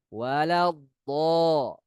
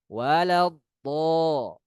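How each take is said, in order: Both takes have the same delivery.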